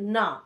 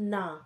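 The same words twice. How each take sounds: First: The word is said harshly and forcefully. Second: The word is said gently and warmly. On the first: The speaker firmly refuses something. "খুব ভায়োলেন্টলিও না বলা যায়" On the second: The speaker affectionately won't let someone go. "আরেকভাবেও বলা যায়"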